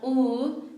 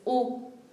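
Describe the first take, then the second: First: The vowel is held long. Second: The vowel is cut short. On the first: The speaker calls it wrong. "not U" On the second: The speaker calls it right. "But shorter a bit"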